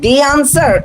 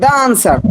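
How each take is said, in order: First: The word 'the' is said with an 'ee' vowel. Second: The word 'the' is said with an 'uh' vowel. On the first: "দি answer না দা answer?" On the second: "দি answer না দা answer?"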